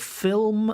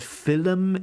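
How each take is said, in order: First: The l-m consonant cluster is said cleanly. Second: The l-m consonant cluster is broken up. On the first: The speaker calls it right. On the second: The speaker calls it wrong.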